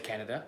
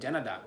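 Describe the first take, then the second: First: The name starts with a hard K sound. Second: The name starts with a J sound. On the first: "they don't say Canada" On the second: "they say Canada, the J"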